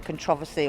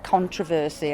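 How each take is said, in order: First: It is said the British way. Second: It is said the American way.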